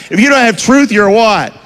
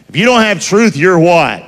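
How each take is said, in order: First: Higher-pitched country twang; country accent. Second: Said in the usual way. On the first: Shown as a demonstration. Preacher prompting the congregation to answer, country accent. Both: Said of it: "say it like you in the country".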